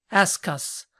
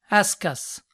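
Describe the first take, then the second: The two takes are said the same way.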